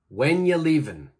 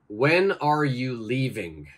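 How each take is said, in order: First: 'Are you' blends together and the final G drops. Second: Every word is said fully and clearly. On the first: "I want you to change that to" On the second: "first we have the question"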